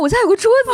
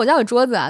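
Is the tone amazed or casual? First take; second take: amazed; casual. First: It sounds amazed and excited. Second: It sounds casual and matter-of-fact.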